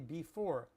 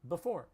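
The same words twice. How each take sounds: First: The first syllable is said fully and clearly. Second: The first syllable is reduced and barely heard. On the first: This is the standard textbook form. "They will teach you to say before. We don't say that" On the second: This is how people really say it. "We say before"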